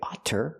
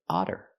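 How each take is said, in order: First: The middle consonant is a crisp T sound. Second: The middle consonant is a quick D-like flap. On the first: The speaker calls it wrong. "We don't say otter" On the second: The speaker calls it right. "the double T making the fast D sound"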